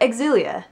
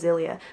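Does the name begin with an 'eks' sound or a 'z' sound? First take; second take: eks sound; z sound. First: The name begins with an eks sound. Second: The name begins with a plain z sound. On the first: The speaker calls it right. "I should probably call it Exilia" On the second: The speaker calls it wrong. "I keep wanting to just call it Zilia"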